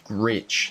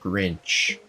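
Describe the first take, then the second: First: The name has no N sound before 'ch'. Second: The name has an N sound before 'ch'. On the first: The speaker calls it right. "It's Gritch" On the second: The speaker calls it wrong. "not Grinch. I have literally always said that wrong"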